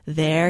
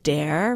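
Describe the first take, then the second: First: The word begins with a soft th sound. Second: The word begins with a hard d sound.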